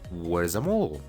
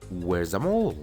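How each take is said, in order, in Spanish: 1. Where e is se unen en una sola sílaba. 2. Where e is se unen en una sola sílaba.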